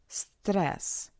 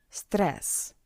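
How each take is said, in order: Both takes have the same delivery.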